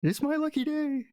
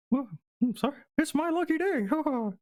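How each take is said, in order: First: High voice that slips off the mouse character; wrong character voice. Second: Very high, squeaky delighted mouse; corrected mouse voice. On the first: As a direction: miss the mouse voice slightly, pitched high. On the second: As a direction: squeak happily as a little mouse, with a chuckle. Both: Acted. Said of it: "That's the wrong voice".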